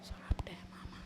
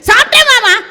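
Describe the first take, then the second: First: It is said quietly. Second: It is said loudly.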